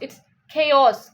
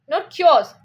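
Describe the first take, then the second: First: The two syllables are kept apart. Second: The two syllables are blended together. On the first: The speaker calls it right. "K and os. It's chaos" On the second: The speaker calls it wrong.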